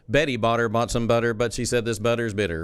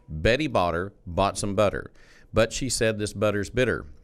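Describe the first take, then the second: First: It is said at normal speed. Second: It is said slowly.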